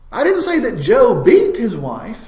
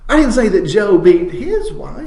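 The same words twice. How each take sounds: First: The word "beat" carries the main stress. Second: The word "his" carries the main stress. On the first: He did something lesser than that act. "he might have smacked her around, but he didn't really beat her" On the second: It was someone else's wife. "it was his neighbor's wife that he knocked around"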